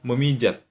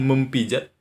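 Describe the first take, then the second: First: The p sound is dropped after the prefix. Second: The p sound is kept after the prefix. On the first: The speaker calls it right. "Yang kalian katakan adalah memijat" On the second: The speaker calls it wrong. "Tidak pernah kan kalian mengatakan mempijat?"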